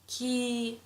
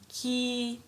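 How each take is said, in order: First: The vowel is held long. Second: The vowel is held long.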